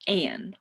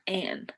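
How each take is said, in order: First: It sounds like the name Anne. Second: The same.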